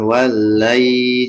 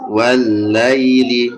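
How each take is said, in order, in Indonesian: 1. Vokalnya dipanjangkan. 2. Vokalnya dibaca pendek, langsung lanjut. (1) "Jangan panjang"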